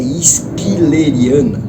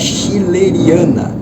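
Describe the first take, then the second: First: The word begins with an s-k sound. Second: The word begins with a soft sh sound. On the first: The speaker calls it right. "ela é esquileriana" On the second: The speaker calls it wrong. "Ela não é schilleriana"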